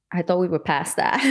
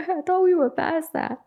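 First: Said in the usual way. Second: Squeaky, much higher repeat of the line; high-pitched mock disbelief; high mock echo. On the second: Shown as a demonstration. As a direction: say it again way up high, incredulous.

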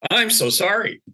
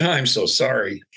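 First: "I'm so sorry" pitched high and pressed; insistent, high "I'm so sorry"; emphatic apology. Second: Said in the usual way. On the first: Retold or imitated. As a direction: repeat "I'm so sorry" higher, with heartfelt force.

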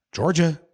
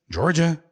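No difference in how they are said.

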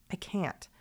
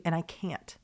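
First: Breaks down to a voiceless whisper; emotional whisper. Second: Getting emotional. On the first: To her podcast listeners, wishing to meet them, a tearful whisper. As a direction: let the words barely come out, choked up. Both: Real, not acted. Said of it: "I'm gonna get emotional".

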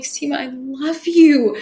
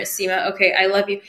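First: Slow, tender "I love you" with a touch of emotion; mean "I love you" this time. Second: "I love you" tossed off, lightly grudging. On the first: Recalling finally loving herself in the mirror, tender and slow. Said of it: "And I would just cry". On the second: Recalling her reluctant mirror work, lightly grudging. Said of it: "with so much resistance". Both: Retold or imitated.

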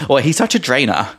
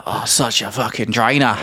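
First: Put-on laughing English accent. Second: Attempted Australian accent. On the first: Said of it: "Like the English". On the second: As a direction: have a go at an Aussie accent. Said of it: "I need to work on my Australian accent".

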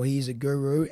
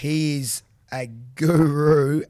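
First: Said in the usual way. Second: Guru drawn out slow and loud; stressed guru. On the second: Real, not acted. Host hyping the professor, slow emphatic guru. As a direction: lean hard on guru.

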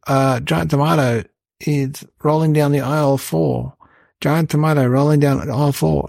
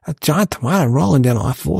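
First: Loudspeaker announcement. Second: Said in the usual way. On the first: Retold or imitated. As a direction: read it out like a bored shop tannoy. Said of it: "And then on the loudspeaker". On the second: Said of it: "And I said".

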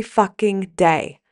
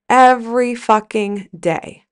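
First: "fucking day" stretched out slowly, each word leaned on; slow emphatic hit. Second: "Every fucking day" slowed, punch on "Every"; repeated slow emphasis. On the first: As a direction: drag "fucking day" out to drive it home. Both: Real, not acted.

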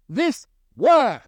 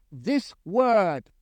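First: "this word" lifted higher, weight on "word"; stress on word. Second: Said in the usual way. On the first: Shown as a demonstration. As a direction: lean into "word" and let it fall. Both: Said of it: "with an emphasis on the word".

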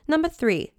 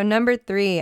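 First: High-pitched British announcement; British accent. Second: Said in the usual way. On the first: Pretend. Host announcing her next tip, British accent. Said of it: "do it in my British accent".

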